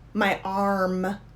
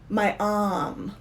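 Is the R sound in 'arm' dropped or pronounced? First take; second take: pronounced; dropped. First: The R sound in arm is pronounced. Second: The R sound in arm is dropped. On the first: "because I'm American, I'll say" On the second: "if I was British, I would say"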